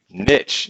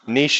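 First: The word is pronounced the English way. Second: The word is pronounced the French way. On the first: The speaker calls it right. "Niche is how we say it" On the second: The speaker calls it wrong. "is how the French pronounce it"

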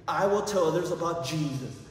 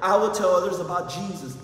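First: It is said at normal volume. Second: It is said loudly.

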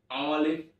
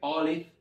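First: The word ends with a v sound. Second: The word ends with an f sound. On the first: "recuerda que es con B" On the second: "puedes colocarle una F"

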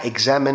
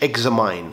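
First: The last syllable sounds like 'min'. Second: The last syllable sounds like 'mine'. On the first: The speaker calls it right. "ده برضو نطق صحيح بتاعها examine" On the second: The speaker calls it wrong. "مش examine"

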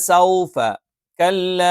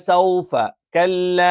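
The two takes are said the same way.

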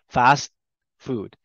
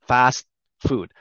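The two takes are said the same way.

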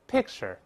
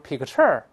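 First: The stress is on the first syllable. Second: The stress is on the second syllable. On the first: The speaker calls it right. "还是重音在前面" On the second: The speaker calls it wrong. "动词不能都是picture，picture 这太别扭了"

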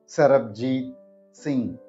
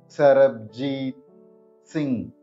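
First: It is said at normal speed. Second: It is said slowly.

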